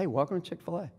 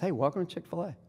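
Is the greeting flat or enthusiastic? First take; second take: enthusiastic; enthusiastic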